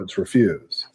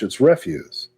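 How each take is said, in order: First: The stress falls on the second syllable. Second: The stress falls on the first syllable. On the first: It means saying no. "if you're saying no" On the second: It means trash. "if it's trash"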